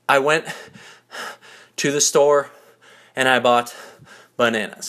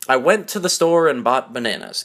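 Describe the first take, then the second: First: It is said breathlessly, gasping mid-sentence. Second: It is said smoothly in one breath.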